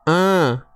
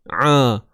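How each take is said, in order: First: The sound is made through the nose. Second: The sound is squeezed in the middle throat. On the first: The speaker calls it wrong. "Tak mau bunyi a. ... tu bunyi hidung" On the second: The speaker calls it right. "di tengah kerongkong dan kita menyempitkan"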